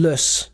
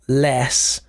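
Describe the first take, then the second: First: The vowel is weak and unstressed, like 'luss'. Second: The vowel is full and stressed, like 'less'. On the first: The speaker calls it right. "Notice the pronunciation, less ... because it's not stressed" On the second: The speaker calls it wrong. "not less"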